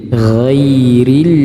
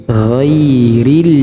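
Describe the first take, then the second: The two takes are said the same way.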